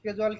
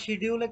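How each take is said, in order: First: The word begins with an 'sk' sound. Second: The word begins with an 'sh' sound. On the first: "ওইটারই সঠিক উচ্চারণে স্কেজুয়ালি বলে" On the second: "অথবা শিডিউলে click করে দেন"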